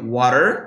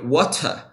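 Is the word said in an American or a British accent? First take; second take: American; British. First: It is said in an American accent. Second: It is said in a British accent. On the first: "a gente tem um sotaque americano, que seria water" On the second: "o britânico já seria water"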